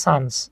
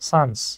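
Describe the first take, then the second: No difference in how they are said.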